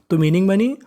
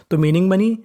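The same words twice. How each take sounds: The two takes are said the same way.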